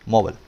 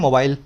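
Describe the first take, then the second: First: It is said with an American English accent. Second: It is said with an Indian English accent. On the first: "इसका सही pronunciation American language में होता है" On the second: "इसको India में बोलते हैं मोबाइल"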